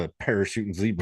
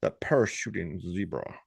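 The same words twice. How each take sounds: First: Lightly put-on Southern accent. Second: Posh accent. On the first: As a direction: try a Southern-accented exclamation. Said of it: "need to do a southern accent". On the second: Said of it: "You can't be posh and say it". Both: Shown as a demonstration.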